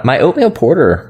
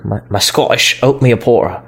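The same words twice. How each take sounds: First: Said in the usual way. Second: Muddled attempt at a Scottish accent; half-hearted, unidentifiable Scottish accent; failed Scottish accent. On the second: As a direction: badly fake a Scottish accent, dropping consonants. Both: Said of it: "I don't know what accent that was".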